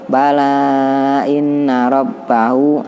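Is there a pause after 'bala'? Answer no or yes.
no. The words run together without any pause.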